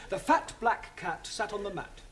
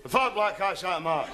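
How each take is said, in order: First: Teacher modelling "fat" with a clean short a; careful diction. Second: Scottish accent. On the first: Teacher showing a Scottish student crisp English diction. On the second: Scottish student repeating the teacher's sentence in broad Scots. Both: Shown as a demonstration. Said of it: "repeat after me".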